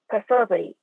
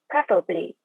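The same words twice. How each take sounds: First: The stress is on the second syllable. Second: The stress is on the first syllable. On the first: "S S E stress on the second syllable" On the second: "R P has primary stress on the first syllable"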